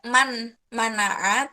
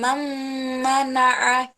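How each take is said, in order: First: The n is said plainly with no held hum. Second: The nasal merges into m with a held hum. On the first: The speaker calls it wrong. "nggak man manaa" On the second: The speaker calls it right. "ada engnya dulu"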